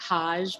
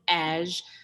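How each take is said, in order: First: The name starts with an h sound. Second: The name starts without an h sound. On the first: The speaker calls it wrong. "It looks like Haj" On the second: The speaker calls it right. "but it's actually Aj"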